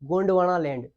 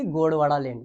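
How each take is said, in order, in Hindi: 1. इसे Gondwana कहा जाता है, इसमें 'n' की आवाज़ है। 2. इसे Godwara कहा जाता है, इसमें 'n' की आवाज़ नहीं है। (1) "बल्कि इसको बोलते हैं गोंडवाना लैंड" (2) "ना कि गोड़वाड़ा लैंड"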